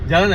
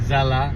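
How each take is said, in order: First: The word begins with a j sound. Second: The word begins with a z sound. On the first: The speaker calls it wrong. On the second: The speaker calls it right.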